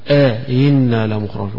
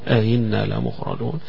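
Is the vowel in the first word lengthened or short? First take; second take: lengthened; short. First: The vowel between the two hamzas is drawn out. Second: The vowel between the two hamzas is kept short. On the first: "يمدها" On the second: "من غير مد"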